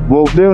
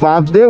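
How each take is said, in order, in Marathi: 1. पहिला स्वर गोलाकार 'o' आवाज आहे. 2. पहिला स्वर उघडा 'a' आवाज आहे. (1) "बोपदेव नाही म्हणत" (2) "आय थिंक बापदेव म्हणतात"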